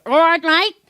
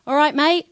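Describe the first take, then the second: First: Squinting Aussie greeting, high and loud; loud, pitched-up mock Australian accent. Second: Cheery London greeting, pitched up and punchy; London accent. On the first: Londoner squinting to turn their greeting Aussie, Australian accent. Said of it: "it's Aussie". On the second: Londoner demonstrating their own accent to an audience, London accent. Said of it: "if I go to you in my accent". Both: Shown as a demonstration.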